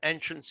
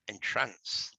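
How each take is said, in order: First: It is pronounced as the everyday doorway word. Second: It is pronounced as the word for spellbinding. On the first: A door or way in. "an entrance is a door" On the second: To put someone under a spell. "it's also entrance. Same spelling, different pronunciation"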